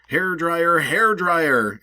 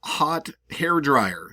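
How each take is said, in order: First: Higher, louder summoning call. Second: Said in the usual way. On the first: Shown as a demonstration. Speaker summoning a hair dryer, higher and louder. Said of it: "You're, like, summoning it". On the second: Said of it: "talking to an object".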